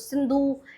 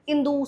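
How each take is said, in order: First: The word begins with an s sound. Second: The word begins with a vowel, without s. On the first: This is the original native name. "सिंधु को pronounce नहीं कर पा रहे थे" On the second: This is how foreigners said the name. "स को वो लोग बोल नहीं पा रहे थे"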